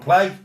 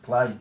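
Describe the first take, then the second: First: It is said loudly and boldly. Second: It is said quietly and timidly.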